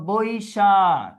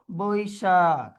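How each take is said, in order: First: তারপরে আসো Boishakh said slowly, Boishakh drawn out; teacher reading out Boishakh slowly; slow dictation. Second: Boishakh stretched very slowly with a falling end; teacher modelling Boishakh slowly; slow demo pronunciation. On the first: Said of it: "teacher dictating word". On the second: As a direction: hold each sound of Boishakh. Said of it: "teacher repeats word". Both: Shown as a demonstration.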